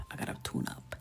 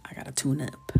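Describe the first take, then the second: First: Much lower, hushed mutter; whispered aside to herself. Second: Said in the usual way. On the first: Shown as a demonstration. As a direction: drop way down and whisper it.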